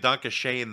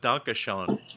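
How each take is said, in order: First: The title is said with an American vowel. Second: The title is said with a German-like vowel.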